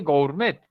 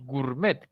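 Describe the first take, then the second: First: "gourmet" with both o and u, go-ur-MET; spelling-pronunciation of "gourmet" with a diphthong ou; gourmet read as written. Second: "gourmet" as gur-MET; "gourmet" with a plain u in the first syllable; gourmet without the O. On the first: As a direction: sound the o in "gourmet". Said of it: "nadie dice gourmet". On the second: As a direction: drop the o in "gourmet", only u sounds. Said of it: "desaparece la O". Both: Shown as a demonstration.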